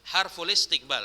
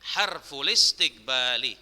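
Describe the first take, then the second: First: The phrase ends on the consonant l. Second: The phrase ends on a final i vowel. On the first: The speaker calls it wrong. "salah Ustaz bacanya" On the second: The speaker calls it right. "tapi harful istiqbali"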